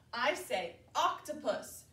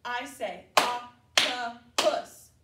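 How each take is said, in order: First: Said in the usual way. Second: Octopus said slowly and much louder, each syllable clear; teacher modeling octopus for kids to repeat, loud and slow. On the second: Shown as a demonstration. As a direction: call octopus out slow and big for the class to echo. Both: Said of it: "You say".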